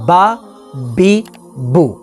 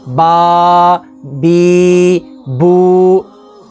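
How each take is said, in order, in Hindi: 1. स्वर सामान्य लंबाई में बोले जाते हैं। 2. स्वर लंबे खींचे जाते हैं। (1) "बल्कि नॉर्मल" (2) "ना ही लंबा करेंगे"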